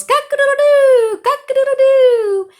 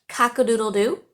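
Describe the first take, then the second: First: Much higher, louder crowing cock-a-doodle-doo with a laugh; loud rooster crow. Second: Said in the usual way. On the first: Shown as a demonstration. Teacher crowing like a rooster for her students, hammed-up. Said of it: "And I'm gonna try to say it". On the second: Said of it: "the way that we say a rooster sound".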